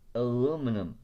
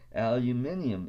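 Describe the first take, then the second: First: It is said with four syllables, ending -num. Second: It is said with five syllables, ending -nium. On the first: The speaker calls it wrong. "It is aluminum" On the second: The speaker calls it right. "It should be pronounced aluminium"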